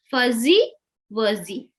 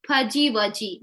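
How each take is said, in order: First: Fuzzy wuzzy with a buzzing Z in the middle; proper Z sound. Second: Fuzzy wuzzy with the zz said as J, fudgy wudgy; wrong J sound. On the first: Teacher models the correct Z sound after the mistake. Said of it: "It will make a Z sound". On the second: Teacher imitates the common J mistake for students. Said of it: "pronounce it as J". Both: Shown as a demonstration.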